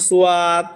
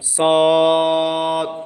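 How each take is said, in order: First: It is said in two syllables, su-yad. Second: It is said in one thick syllable, sad. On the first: The speaker calls it wrong. "অনেকে এটা সুয়াদ বলে" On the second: The speaker calls it right. "বলতে হবে সদ"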